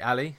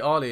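First: The name begins with a short 'a' vowel. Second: The name begins with a long 'ar'-like vowel. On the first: This is how the speaker says it, following the spelling. "I say Ali ... There's no R in that" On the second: This is how the other person says it. "you say Ali"

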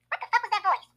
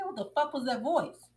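First: It is said in a squeaky chipmunk voice. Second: It is said in his normal voice.

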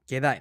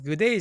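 First: The word ends with an 'eye' sound. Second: The word ends with an 'ay' sound. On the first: The speaker calls it right. "まずグデイじゃなくてゲダイね" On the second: The speaker calls it wrong. "グデイじゃなくて"

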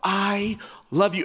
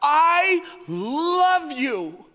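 First: It is said flatly, without passion. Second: It is said emphatically and passionately.

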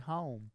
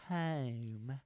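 First: It is said the standard way. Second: It is said in a West Virginia dialect.

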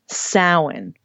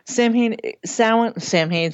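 First: It is said with the traditional pronunciation. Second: It is said as spelled, sounding the h. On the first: The speaker calls it right. "And lastly" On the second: The speaker calls it wrong. "See, now they have me saying it"

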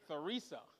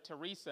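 First: The name begins with a th sound. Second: The name begins with a plain t sound. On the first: The speaker calls it right. "Got to get that T-H in there" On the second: The speaker calls it wrong. "I called her Teresa"

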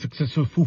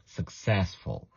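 First: The stress falls on the last syllable. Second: The stress falls on the second syllable. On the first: The speaker calls it wrong. "Don't say successful, foo" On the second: The speaker calls it right. "stressing the sess as well"

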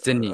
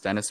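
First: It does not sound like English Dennis. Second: It sounds like the English name Dennis. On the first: The speaker calls it right. "but it's Denis" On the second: The speaker calls it wrong. "I just always thought it was Dennis"

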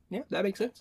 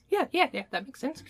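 First: It is said in the speaker's normal voice. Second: It is said in a put-on feminine voice.

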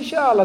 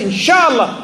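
First: It sounds dismissive and noncommittal. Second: It sounds sincere and committed.

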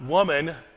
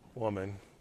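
First: It is said in a harsh, scolding tone. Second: It is said in a warm, respectful tone.

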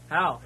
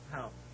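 First: It is said loudly. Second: It is said at normal, quieter volume.

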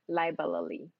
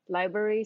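First: The word is broken into separate, distinct parts. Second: The word is said smoothly as one unit.

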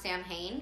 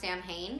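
First: The word is pronounced just as it is spelled. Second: The word is pronounced just as it is spelled.

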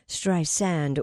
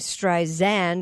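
First: The middle consonant is a hissing S sound. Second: The middle consonant is a buzzing Z sound. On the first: The speaker calls it right. "the correct pronunciation, which is Streisand with an S sound" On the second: The speaker calls it wrong. "Siri has been saying Streisand with a Z sound"

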